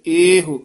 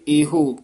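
First: "ਇਹੋ" as ay-hu, long first vowel, short u; short final vowel. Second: "ਇਹੋ" as ay-ho with a full o; long o ending. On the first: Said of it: "ਈੜੀ ਲਾਂ ਹਾਹੇ ਔਂਕੜ ਹੋਵੇ". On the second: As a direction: finish "ਇਹੋ" on a held o sound. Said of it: "ਈੜੀ ਲਾਂ ਹਾਹੇ ਹੂੜਾ ਹੈ". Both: Shown as a demonstration.

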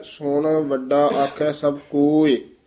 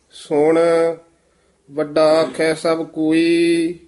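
First: ਸੁਣ set apart with a short break; pause after ਸੁਣ. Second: ਸੁਣ, then a clear pause before ਵੱਡਾ; pause after ਸੁਣ. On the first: Shown as a demonstration. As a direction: rest on ਸੁਣ, then go on. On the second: Real, not acted. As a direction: hold a break after ਸੁਣ. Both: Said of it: "ਸੁਣ ਤੇ ਵਿਸਰਾਮ ਲਾਉਣਾ ਹੈ".

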